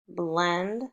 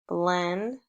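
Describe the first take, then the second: No difference in how they are said.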